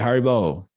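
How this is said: It sounds like calling for someone's attention.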